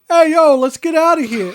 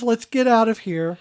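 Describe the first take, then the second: First: It is said in an exaggerated put-on voice. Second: It is said in a plain, normal voice.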